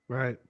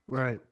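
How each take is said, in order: No difference in how they are said.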